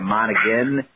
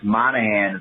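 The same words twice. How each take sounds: First: The G in the name is pronounced. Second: The G in the name is silent. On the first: The speaker calls it right. "it's Monaghan for sure" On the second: The speaker calls it wrong. "you do want to just make that G silent"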